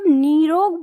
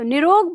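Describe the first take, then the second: First: It sounds heavy and effortful on the tongue. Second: It comes out quickly and smoothly, flowing. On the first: This is the original learned form. "भार पड़ता है" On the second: This is the everyday derived form. "बहुत जल्दी एकदम flow में निकलता है"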